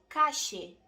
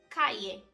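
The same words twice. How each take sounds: First: It is said with an Argentine Spanish accent. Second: It is said with a Castilian Spanish accent.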